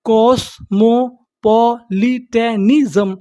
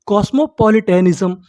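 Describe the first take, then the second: First: कॉस्मोपॉलिटनिज्म very slowly, each syllable held apart; slow teaching breakdown of कॉस्मोपॉलिटनिज्म. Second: Said in the usual way. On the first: Shown as a demonstration. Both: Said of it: "तो meaning क्या बनी हमारी".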